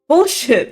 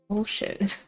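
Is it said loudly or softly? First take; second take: loudly; softly. First: It is said too loudly. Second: It is hissed softly.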